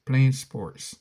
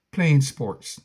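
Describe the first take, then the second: No difference in how they are said.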